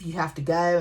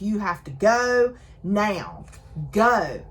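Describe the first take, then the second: First: Said in the usual way. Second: Drawn-out, urgent order, half-yelled; retold mild yell. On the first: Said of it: "he's yelling at her". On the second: He orders her to leave after the earthquake, mock yelling. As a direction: imitate yelling without full volume. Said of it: "And he's yelling at her".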